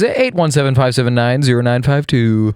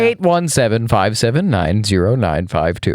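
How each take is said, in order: First: The number is read fast. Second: The number is read slowly.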